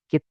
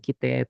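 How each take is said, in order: First: "kite" as kit, held stop, te; doubled t. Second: Said in the usual way. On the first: Shown as a demonstration. Teacher corrects one t to two, doubled consonant. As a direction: hold back the t in "kite" to make two. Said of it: "Jadi ada dua gitu". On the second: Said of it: "T-nya satu".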